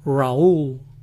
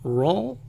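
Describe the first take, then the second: First: The name sounds like Raúl, with a foreign accent. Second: The name sounds like the English word Rawl. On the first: The speaker knows how the name goes. "lo dicen aún con acento" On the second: The name was misread from its spelling. "algunos van a pensar que se pronuncia Rawl"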